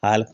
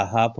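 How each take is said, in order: First: "हाल्फ" with an L before the final consonant; L wrongly sounded. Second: "हाफ" with long aa straight into F; silent L. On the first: Teacher showing what not to say, L sounded in "हाल्फ". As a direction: voice the silent L in "हाल्फ". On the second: Teacher showing the correct half, no L in "हाफ". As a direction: leave the L out of "हाफ". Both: Shown as a demonstration. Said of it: "नहीं बोला जाता".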